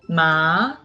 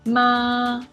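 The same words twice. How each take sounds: First: The pitch rises from middle to high. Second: The pitch stays high and level. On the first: "The second tongue is a rising tongue" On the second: "The first one is a high-level tongue"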